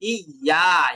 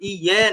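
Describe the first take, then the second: First: The syllable ends with an a vowel. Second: The syllable ends with an e vowel. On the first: The speaker calls it right. "ইয়া আলিফ জবর ইয়া।" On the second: The speaker calls it wrong. "অনেকে কিন্তু ইয়ে নে- ই- এভাবে উচ্চারণ করছেন, ইয়ে না"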